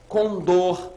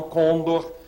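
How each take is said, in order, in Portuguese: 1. A tônica está na última sílaba. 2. A tônica está na primeira sílaba. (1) "oxítona" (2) "e não condor"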